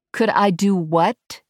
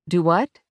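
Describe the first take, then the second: First: Slow, higher repeat, COULD stressed, rising at the end; puzzled repeat. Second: WHAT lifted in a rising question; puzzled question. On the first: Verity asks the drone once more, puzzled and insistent. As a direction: stretch the question out, lean on COULD, lift WHAT. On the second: Verity to the drone, not following, puzzled. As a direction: ask "Do what?" with the pitch climbing on WHAT. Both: A narrator's reading. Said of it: "she repeated".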